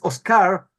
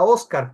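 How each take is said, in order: First: It is pronounced the English way. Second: It is pronounced the Spanish way. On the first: The name is written without an accent mark. "como es en inglés" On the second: The name is written with an accent mark. "como una palabra española, es decir, españolizada"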